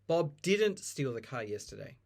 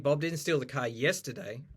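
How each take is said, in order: First: The stress falls on the word didn't. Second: The stress falls on the word yesterday. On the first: The act did not happen at all. "Focusing on he did not do that" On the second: It happened on another day. "If you put the stress on yesterday"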